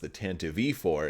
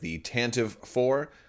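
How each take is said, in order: First: It is said with an 'E' sound before 'four'. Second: It is said with no sound between 'Tantive' and 'four'. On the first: The speaker calls it right. "it's actually pronounced" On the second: The speaker calls it wrong. "You might also refer to it as"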